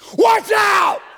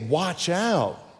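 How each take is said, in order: First: It is shouted forcefully as an exclamation. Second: It is said calmly, without force.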